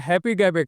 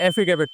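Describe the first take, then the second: First: The word starts with a clear 'happy' sound. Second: The word starts with an 'affi' sound. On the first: This is how the politician said it. "जो ये शब्द हैप्पी गैबिट है" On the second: This is how people normally say it. "गलती से इसे एफिगेबिट पढ़ते आ रहे हैं"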